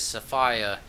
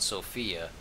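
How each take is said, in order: First: The name is said with a British pronunciation. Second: The name is said with an American pronunciation. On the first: This is how it is said in the game. "They pronounce it as Sophia in the game, but then again, they're in London, England" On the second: This is how it is said in America. "I'm from America, and over here we call it Sophia"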